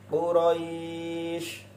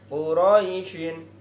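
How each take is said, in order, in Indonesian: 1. Kata ini berhenti tanpa akhiran. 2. Kata ini tetap memakai akhiran -in.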